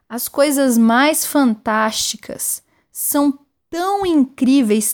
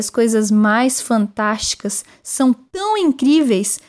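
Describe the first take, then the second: First: It is said slowly and deliberately. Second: It is said at normal speed.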